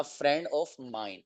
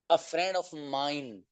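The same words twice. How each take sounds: First: A friend of mine drawn out slowly, softer; slow model phrase. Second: A friend of mine stretched slowly, softer; slow model phrase. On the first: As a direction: repeat the phrase slowly and softly. (a friend of mine धीरे-धीरे दोहराएँ) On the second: (a friend of mine धीरे-धीरे, धीमी आवाज़ में) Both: Shown as a demonstration. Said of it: "teacher models phrase slowly".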